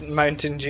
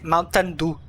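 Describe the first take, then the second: First: It is said with a plain English accent. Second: It is said with a Spanish accent.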